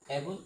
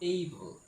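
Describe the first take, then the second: First: The first vowel sounds like 'a' in cat. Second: The first vowel sounds like 'ay' in day. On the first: The speaker calls it wrong. "এটি সম্পূর্ণ ভুল উচ্চারণ" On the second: The speaker calls it right. "Correct pronunciation"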